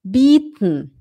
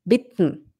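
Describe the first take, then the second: First: "Bitten" as bieten, long ee and swallowed ending. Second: "Bitten" with a short, lax i, lower. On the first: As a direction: stretch the i in "Bitten". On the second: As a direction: clip the vowel in "Bitten" short. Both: Shown as a demonstration. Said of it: "A mesma coisa aqui".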